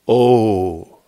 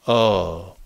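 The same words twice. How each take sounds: First: The vowel is said with rounded lips. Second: The vowel is said without lip rounding. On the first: The speaker calls it right. "you'll see the lips naturally make a round O shape" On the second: The speaker calls it wrong. "If you don't, you'll see this. Oh. No lips"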